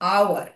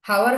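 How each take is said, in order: First: The word begins directly with a vowel. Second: The word begins with an h sound. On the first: The speaker calls it right. "ভাওয়েলের মতো" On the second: The speaker calls it wrong. "হাওয়ার হয় না"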